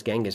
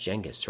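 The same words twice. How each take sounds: First: Genghis said "GANG-gus", hard G; hard G pronunciation. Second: Genghis said "JANG-gus", soft G; soft G pronunciation. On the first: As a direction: open Genghis with the "g" of go. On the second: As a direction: open Genghis with the "j" of jam. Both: Shown as a demonstration. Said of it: "I think it's pronounced".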